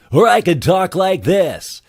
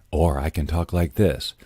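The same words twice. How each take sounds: First: Very high, slow, loud silly voice; high, loud demo voice. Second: Dropped, understated voiceover tone; lower demo voice. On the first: Voice talent showing off the range, high loud voice. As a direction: push it way up and stretch it out. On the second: Voice talent showing clients the range, lower voice. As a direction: bring it down for a contrasting read. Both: Shown as a demonstration.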